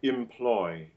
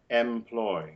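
First: The first vowel is a short, relaxed 'kit' sound. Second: The first vowel is an open 'dress' sound. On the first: The speaker calls it right. "most British speakers would realize that like an open I" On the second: The speaker calls it wrong. "not can employ"

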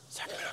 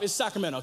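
First: It is said in a whisper. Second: It is said in a normal voice.

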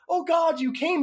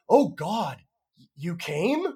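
First: It sounds delighted, as the actress read it. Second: It sounds dismayed and disbelieving, like a question.

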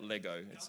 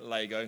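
First: Lego is said with a non-South-Australian pronunciation. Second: Lego is said with a South Australian pronunciation. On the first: This is how others say it. The speaker calls it wrong. "not Lego" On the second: This is the speaker's own local way of saying it. The speaker calls it right. "I'm saying Lego, ... I'm South Australian"

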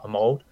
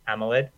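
First: The word is said with two syllables. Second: The word is said with three syllables. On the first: The speaker calls it wrong. "not Amold" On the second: The speaker calls it right. "bad pronunciation of Amoled"

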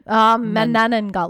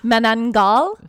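First: The word is said with four syllables. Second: The word is said with three syllables. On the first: The speaker calls it right. "There's three N. Like banana" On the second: The speaker calls it wrong. "I'm going to say this wrong"

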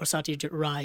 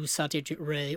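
First: The surname rhymes with 'eye'. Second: The surname rhymes with 'day'. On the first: The speaker calls it right. "I think it's Rai" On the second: The speaker calls it wrong. "we've been saying Ray for so long"

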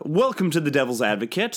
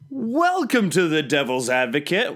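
First: It is said flatly, without much emotion. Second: It is said with more emotion.

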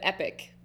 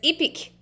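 First: It is said in a standard accent. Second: It is said in a New Zealand accent.

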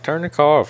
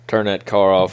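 First: It sounds relaxed and friendly. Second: It sounds threatening, like a robbery.

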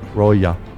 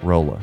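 First: The name is said in a Spanish-style way. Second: The name is said in a plain English way. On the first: "Like it's the Spanish" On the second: "I wonder if that's how you pronounce that"

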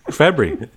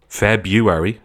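First: The word is rushed and mumbled quickly. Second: The first R is left out entirely. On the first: "like skipping past it so that nobody notices you said it" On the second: "ignoring the R entirely"

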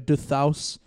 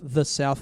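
First: It is said in a French accent. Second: It is said in a plain English accent. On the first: The speaker calls it wrong. "it's like when French people, ... they go du thaus" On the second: The speaker calls it right. "instead of saying south"

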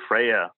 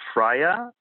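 First: The surname is pronounced the English way. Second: The surname is pronounced the German way. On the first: "The English say Freyer" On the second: "That's how you pronounce it in German"

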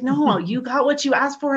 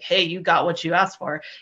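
First: It is said in a sincere tone. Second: It is said in a sarcastic tone.

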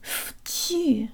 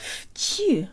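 First: The syllable begins with a voiceless F sound. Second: The syllable begins with a voiceless F sound.

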